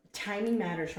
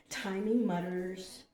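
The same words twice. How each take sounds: First: Said in the usual way. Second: "mutters" said slowly in place of "matters"; slow slip of the tongue, "mutters" with an UH vowel. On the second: Real, not acted. Misreads word, then corrects it.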